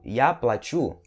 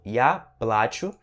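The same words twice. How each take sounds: First: Плачу as pla-CHU, last syllable strong; stress on the U. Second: Плачу slowly as PLA-chu, A stressed. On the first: Teacher contrasts the second case, stressed U in плачу. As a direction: move the weight onto U in плачу. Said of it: "sílaba tônica no U". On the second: Teacher contrasts the first case, stressed A in плачу. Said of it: "sílaba tônica no A". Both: Shown as a demonstration.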